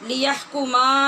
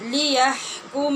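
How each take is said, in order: First: The final m is followed by a vowel. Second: The word ends on a short final m. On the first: The speaker calls it wrong. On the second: The speaker calls it right.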